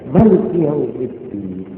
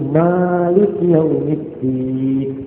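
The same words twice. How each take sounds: First: The first vowel after m is kept short. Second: The first vowel after m is held long. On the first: "Minnya itu pendek" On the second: "Minnya panjang"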